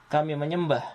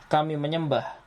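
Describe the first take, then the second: The two takes are said the same way.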